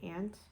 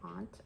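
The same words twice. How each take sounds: First: The word is said the Midwest way. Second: The word is said the Northern Maine way. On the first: "you don't say aunt" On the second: "In Northern Maine, you say aunt"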